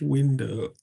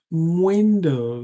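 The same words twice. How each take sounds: First: The word begins with a plain 'w' sound. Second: The word begins with an 'mw' sound. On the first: The speaker calls it wrong. "not window" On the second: The speaker calls it right. "Window, not window"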